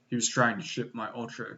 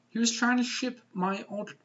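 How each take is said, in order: First: It is read in a put-on character voice. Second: It is read in the speaker's normal voice. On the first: The speaker calls it right. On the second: The speaker calls it wrong.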